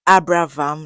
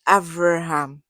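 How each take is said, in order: First: The name is said with a b sound. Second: The name is said with a v sound. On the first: This is the usual English form of the name. The speaker calls it wrong. "it wasn't Abraham like I've been pronouncing" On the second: This is the Hebrew form of the name. The speaker calls it right. "It's Avraham"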